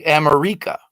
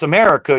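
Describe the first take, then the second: First: America said as am-er-EE-ka; shifted vowel emphasis. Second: Said in the usual way. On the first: Shown as a demonstration. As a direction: move the emphasis in America onto a long ee. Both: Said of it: "emphasis is put on the vowels".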